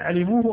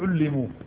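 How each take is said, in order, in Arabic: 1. يبدأ بالفتحة a ثم لام مفردة. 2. يبدأ بالضمة u ثم لام مشددة. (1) "بفتح العين وكسر اللام المخففة" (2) "بضم العين وتشديد اللام"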